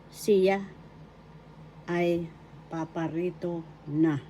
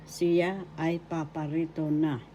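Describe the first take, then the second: First: Siya, pause, ay, pause, paparito na; word by word. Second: Said in the usual way. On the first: Shown as a demonstration. Teacher gives example of na, Siya ay paparito na broken word by word. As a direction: set Siya and ay apart with long teaching pauses.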